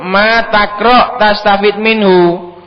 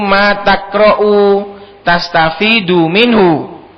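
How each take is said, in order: First: The verbs end without a final vowel. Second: The verbs end with a final u vowel. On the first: Whatever you read, you will benefit from it, as a condition. "Kalau dijadikan sebagai syartiyah maka bacanya dijazm" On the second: You benefit from what you read, as a plain statement. "kalau dijadikan mausulah ... Maka bacanya itu"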